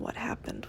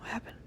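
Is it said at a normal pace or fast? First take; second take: normal; fast. First: It is said at a normal pace. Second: It is said fast.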